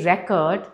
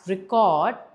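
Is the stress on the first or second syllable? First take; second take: first; second. First: The stress is on the first syllable. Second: The stress is on the second syllable.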